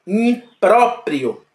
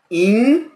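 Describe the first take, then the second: First: Impróprio drawn out slowly, stress on pró; slow stressed demo. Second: Said in the usual way. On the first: Shown as a demonstration. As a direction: stretch Impróprio out carefully. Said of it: "teacher demonstrates stressed syllable". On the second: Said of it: "quick repeat with laugh".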